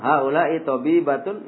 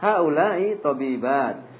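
First: The vowel before the final t is short. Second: The vowel before the final t is long. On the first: It sounds like a single female doctor. The speaker calls it wrong. "Kalau dibaca pendek nanti tertukar sama yang mufrad" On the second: It refers to several female doctors. The speaker calls it right. "Maka dipanjangkan cara mengucapkannya"

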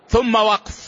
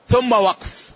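Both takes have the same delivery.

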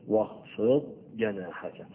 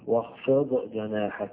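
First: The daad is held clearly, separate from the jeem. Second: The daad gets a bouncing release before the jeem. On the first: The speaker calls it right. "وباقي القراء هيفصل بين الاثنين" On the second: The speaker calls it wrong. "ما تقراش ... لا، لأن الضاد لا تقلقل"

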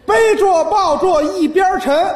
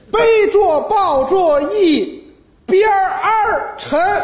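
First: The word 边 is said without an r ending. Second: The word 边 is said with an r ending. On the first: The line counts as seven syllables. "还是七个字" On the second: The line counts as eight syllables. "儿化音"

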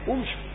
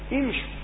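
First: The word begins with a u vowel. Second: The word begins with an i vowel. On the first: The speaker calls it wrong. "لا أتي بهمزة الوصل مضمومة، ... وليس امشوا" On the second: The speaker calls it right. "أقول امشوا"

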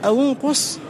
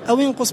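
First: The waw is followed by a u vowel. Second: The waw is followed by an i vowel. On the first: "لأن الهمزة مضمومة" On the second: "بالكسر لأنه الأصل في التخلص من الساكنين"

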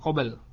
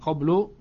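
First: It is said qabl, ending in a consonant. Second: It is said qablu, ending in -u. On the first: "bukan qabl" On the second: "bukan qablu"

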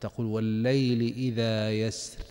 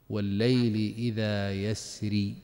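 First: The last word stops on a light 'r'. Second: The last word ends with a long 'ee' vowel. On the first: "الأمثل فيها الترقيق عند الوقف" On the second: "إشارة إلى الياء المحذوفة"

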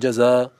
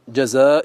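First: The final glottal stop is softened or dropped. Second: The final glottal stop is clearly pronounced.

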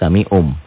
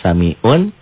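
First: The word ends with an m sound. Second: The word ends with an n sound. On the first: "jadi samium" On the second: "yang asalnya samiun"

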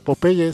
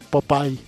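First: The name is read with Spanish sounds. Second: The name is said with English sounds. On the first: The speaker calls it wrong. "originalmente en inglés no se pronuncia Popeye" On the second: The speaker calls it right. "sino Popeye"

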